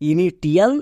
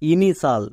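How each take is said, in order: First: The middle is said with a t sound: ti-al. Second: The ending is one syllable with sh: shal. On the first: The speaker calls it wrong. "একে অনেকে ভুল করে উচ্চারণ করে" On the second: The speaker calls it right. "কিন্তু এর উচ্চারণ হবে ইনিশাল"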